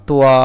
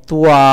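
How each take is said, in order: No difference in how they are said.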